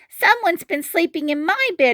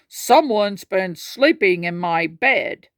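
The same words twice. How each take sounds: First: It is cried out like a child. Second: It is said in a deep, gruff voice.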